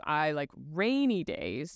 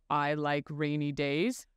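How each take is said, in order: First: "I like rainy days" with "rainy" stressed, slow; slow demo line with "rainy" stressed. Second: "I like rainy days" with the word days stressed, slow; slow demo line with "days" stressed. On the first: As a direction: punch "rainy" and let "days" ride up. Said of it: "Same words, different intonation". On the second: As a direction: lean on "days", rising at the end. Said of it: "things like intonation and prosody". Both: Shown as a demonstration.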